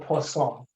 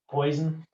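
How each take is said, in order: First: It is given a French pronunciation. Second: It sounds like the English word poison. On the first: This is the original French name. The speaker calls it right. "it's actually called the Poisson because it's French" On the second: This is how people in Indiana would say it. The speaker calls it wrong. "If you're in Indiana, this is poison"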